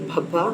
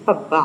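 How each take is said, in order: First: भब्बा with a breathy aspirated bh, the Hindi way; Hindi-style भब्बा, aspirated bh; Hindi pronunciation. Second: पब्बा said with a plain unaspirated p, the Punjabi way; Punjabi-style पब्बा with a p sound and falling pitch; Punjabi pronunciation. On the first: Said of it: "Hindi में हो तो हम इसको pronounce करेंगे". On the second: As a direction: say पब्बा starting on a crisp p, not bh. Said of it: "Punjabi में इसको use करेंगे तो हम इसको प्रोनाउंस करेंगे". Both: Shown as a demonstration.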